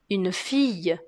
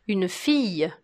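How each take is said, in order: The two takes are said the same way.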